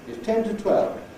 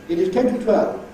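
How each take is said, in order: First: It is reduced to a short weak form. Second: Every word is said in full, strong form. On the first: The speaker calls it right. "what should sound like is" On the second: The speaker calls it wrong. "terribly un-English, terribly rattling"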